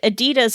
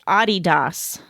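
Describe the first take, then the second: First: It is said the usual American way. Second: It is said the non-American, original way. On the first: The speaker calls it wrong. "Americans don't like to pronounce it that way" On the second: The speaker calls it right. "is actually pronounced"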